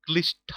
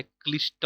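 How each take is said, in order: First: क्लिष्ट ending in an aspirated "ṭha"; wrong pronunciation. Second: क्लिष्ट ending in an unaspirated "ṭa"; correct pronunciation. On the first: Teacher showing the misspelt word, aspirated ending stressed. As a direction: say क्लिष्ट as "klish-ṭha", with a puff of air. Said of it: "नहीं होता है". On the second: Teacher correcting the misspelt word, plain unaspirated ending. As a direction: say क्लिष्ट as "klish-ṭa", no puff of air. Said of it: "होता है". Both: Shown as a demonstration.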